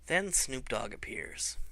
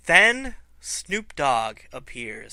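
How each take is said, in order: First: Hushed reveal. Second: Slow dramatic reveal. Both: Shown as a demonstration.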